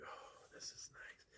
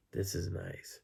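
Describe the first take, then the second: First: Slow, whispered imitation of someone nestling; hushed, drawn-out contentment; contented whisper. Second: Softly voiced imitation of cosy contentment; contented murmur. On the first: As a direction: whisper it, settling cosily into bed. Imitating her settling down cosily. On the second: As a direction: say it softly, as if settling in. Same words repeated more audibly.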